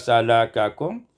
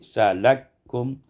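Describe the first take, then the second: First: Both k sounds are pronounced separately. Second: The two k sounds merge into one.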